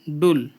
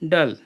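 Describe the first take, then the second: First: The vowel is a rounded 'oo' sound. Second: The vowel is an open 'uh' sound. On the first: The speaker calls it right. "U double L उल पढ़ेंगे" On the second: The speaker calls it wrong. "इसको गलत पढ़ दिए शायद तक हम लोग"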